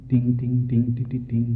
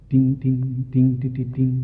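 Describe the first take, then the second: No difference in how they are said.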